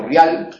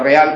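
First: RIAL as RYAL, one syllable; real as rial. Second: REAL as re-AL, two syllables; real with hiatus. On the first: Teacher showing the altered form, one-syllable ryal. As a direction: glide I into A in RIAL. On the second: Teacher giving the original form, re-AL. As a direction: keep E apart from A in REAL. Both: Shown as a demonstration. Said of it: "pronunciar real como rial".

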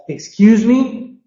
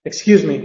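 First: "Excuse me" slow and high, ME rising; emphatic objection. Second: Said in the usual way. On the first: Shown as a demonstration. Teacher tells someone they're wrong, emphatic rising intonation. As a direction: stretch "Excuse me" and push it up. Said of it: "when you really want to emphasize".

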